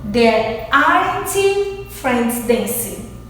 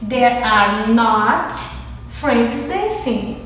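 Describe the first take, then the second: First: Are and not are joined into one short word. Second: Are and not are said as two full words. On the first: "negative contracted form, que é a junção do are com not" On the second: "minha negativa normal"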